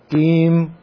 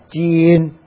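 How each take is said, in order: First: The word ends with an m sound. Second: The word ends with an n sound. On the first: "闽南话是Kim" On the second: "普通话是金"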